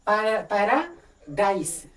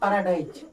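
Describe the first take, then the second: First: The word ends with an s sound. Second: The word ends with a z sound. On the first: This is the British English pronunciation. The speaker calls it right. "British English में करेंगे तो हो जाएगा पैराडाइस" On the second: This is how Hindi speakers commonly say it. The speaker calls it wrong. "Not पैराडाइज"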